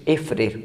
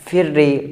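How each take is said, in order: First: The consonants are not merged and no final vowel. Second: The doubled consonant ends with an i vowel. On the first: "बग़ैर इदगाम" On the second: "कसरा"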